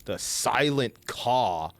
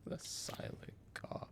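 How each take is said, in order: First: Said in the usual way. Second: "The Silent Caw" in a breathy hush, no voice; whisper. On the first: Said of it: "The Silent Caw whispered". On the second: Shown as a demonstration. Streamer hushing the item name, whispered. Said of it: "The Silent Caw said plainly".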